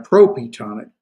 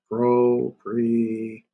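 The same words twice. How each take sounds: First: Said in the usual way. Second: PROPRETONIC drawn out slowly, part by part; syllable by syllable. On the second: Shown as a demonstration. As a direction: stretch propretonic into pro, pre, tonic with gaps. Teacher breaks term into its parts.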